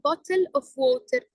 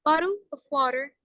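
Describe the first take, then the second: First: Every letter is pronounced fully, Arabic-style. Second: It is said in an American accent. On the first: "العربي تبعتنا مثلا bottle of water بنلفظ كل حرف بحرفه" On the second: "إذا بدنا نروح على الأمريكان"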